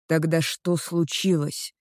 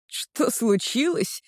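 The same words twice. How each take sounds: First: Said in the usual way. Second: Higher, slow mocking echo of the question; incredulous scoff. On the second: Girl echoes her boyfriend's question, incredulous slow scoff. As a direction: scoff back at him in disbelief. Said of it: "Я недоверчиво усмехаюсь".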